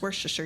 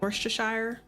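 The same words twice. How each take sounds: First: The ending is reduced, without 'shire'. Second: The ending is a full 'shire' sound. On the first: The speaker calls it right. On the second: The speaker calls it wrong.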